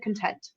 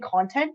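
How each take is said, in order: First: The word is pronounced in an odd, unnatural way. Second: The word is pronounced the usual, natural way. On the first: The voice is probably artificial. The speaker calls it wrong. "She said content. So she's probably A I" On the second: This is how people normally say it. The speaker calls it right. "she didn't say it the way that, that we would say it"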